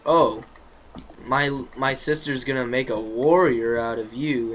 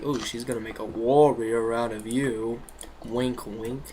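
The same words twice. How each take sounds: First: Said in the usual way. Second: Dry mock praise, not meant; sarcastic. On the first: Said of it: "Sarcastic tone". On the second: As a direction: say it mockingly, with a wink in the voice. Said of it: "like, sarcastic".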